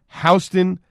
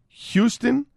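First: The first syllable sounds like 'how'. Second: The first syllable sounds like 'hue'. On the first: It is named after the New York street. The speaker calls it right. "It's pronounced Houston" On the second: It is named after the Texas city. The speaker calls it wrong. "not Houston"

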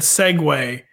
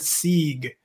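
First: It is said as two syllables, seg-way. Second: It is said as one syllable, seeg. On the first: The speaker calls it right. "which is the proper way to pronounce that word" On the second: The speaker calls it wrong. "super embarrassingly"

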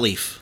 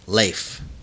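First: The vowel is not a long A. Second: The vowel is a long A. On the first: The speaker calls it wrong. "it's not Leif" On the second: The speaker calls it right. "Long A"

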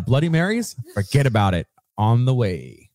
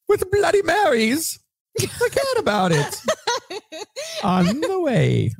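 First: It is read in his ordinary voice. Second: It is read in a put-on character voice.

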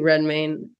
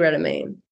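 First: The name is said without an extra vowel. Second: The name is said with an extra vowel. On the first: The speaker calls it right. "I just looked at the spelling, so it must be Redmayne" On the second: The speaker calls it wrong. "I don't know why I added extra vowel"

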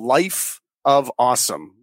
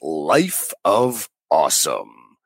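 First: It is said in an ordinary speaking voice. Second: It is said in a special put-on show voice. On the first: "It's called Life of Awesome" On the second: "if we say it in the real voice"

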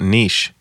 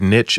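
First: The word is said the non-American way. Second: The word is said the American way. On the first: The speaker is from outside the United States. "and not niche" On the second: The speaker is from the United States. "I can tell that you're in the States because you said niche"

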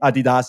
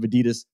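First: Adidas is said with the European pronunciation. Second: Adidas is said with the American pronunciation. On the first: "Since we're talking about European soccer, I'm going to go with the Adidas" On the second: "instead of Adidas pronunciation"

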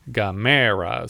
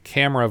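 First: The stress is on the second syllable. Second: The stress is on the first syllable. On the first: "you're putting the emphasis on the second syllable instead of the first syllable" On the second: "it's more like Camera versus Gamera"

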